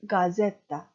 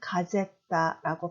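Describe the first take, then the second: First: The first consonant is voiced. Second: The first consonant is voiceless. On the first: The speaker calls it right. "유성음이죠" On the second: The speaker calls it wrong. "편하게 가제따라고 발음하시는 게 아니라"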